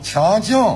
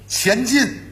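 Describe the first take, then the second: First: It is said with a heavy nasal Shanxi accent. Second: It is said in plain standard Mandarin. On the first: "走鼻音" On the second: "比如咱们说前进"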